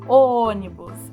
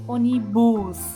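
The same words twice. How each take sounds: First: The stress falls on the first syllable. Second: The stress falls on a later syllable. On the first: The speaker calls it right. "a sílaba tônica aqui mais forte é o O do ônibus" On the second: The speaker calls it wrong. "A gente não fala ônibus"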